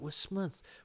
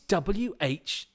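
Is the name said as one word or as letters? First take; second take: one word; letters. First: It is said as one word, 'wurstmouth'. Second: It is said as letters W, H, then Smith. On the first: The speaker calls it wrong. "I don't know how to pronounce that" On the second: The speaker calls it right. "it suddenly struck me, oh, it's W H. Smith"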